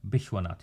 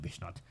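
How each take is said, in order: First: The name is said in its full form. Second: The name is said in a shortened form. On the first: This is the standard form of the name. "is how, how you say it" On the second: This is the everyday form used locally. "but we call it Bishnat"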